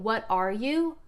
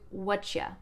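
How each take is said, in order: First: Each of the three words is said separately. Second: The words blend into one short reduced word. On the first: "instead of saying" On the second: "It reduces down to whatcha"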